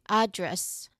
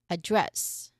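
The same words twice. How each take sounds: First: The stress is on the first syllable. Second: The stress is on the second syllable.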